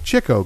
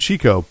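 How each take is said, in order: First: The first syllable sounds like 'chick'. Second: The first syllable does not sound like 'chick'. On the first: The speaker calls it right. "supposed to be Chico, because he liked to chase the chicks" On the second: The speaker calls it wrong. "I always grew up calling him Chico"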